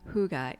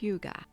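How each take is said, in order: First: The first vowel is a plain 'u' sound. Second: The first vowel sounds like 'y' in yield. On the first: The speaker calls it wrong. "It's not huga" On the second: The speaker calls it right. "sounds like the Y in yield"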